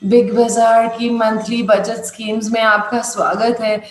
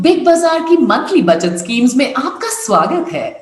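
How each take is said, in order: First: It is said in a sad, gloomy tone. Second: It is said in a cheerful, inviting tone.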